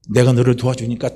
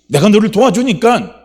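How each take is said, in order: First: Measured, restrained promise of help; calm voice of a helping father; calm assurance. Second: High, loud impassioned promise; impassioned raised-voice assurance; urgent assurance. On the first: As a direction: assure steadily without pushing. God calmly offers help. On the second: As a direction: press the promise home at full force. God repeats it, urging. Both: Acted.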